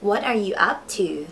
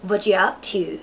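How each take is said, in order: First: Every word is said fully at a moderate pace. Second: It is said quickly, with 'are' dropped. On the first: "ประโยคต่อไปนะคะ" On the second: "พูดเร็วๆก็"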